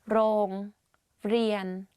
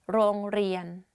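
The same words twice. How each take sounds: First: The word is said slowly, syllable by syllable. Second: The word is said quickly as one unit.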